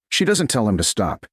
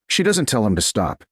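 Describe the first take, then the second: No difference in how they are said.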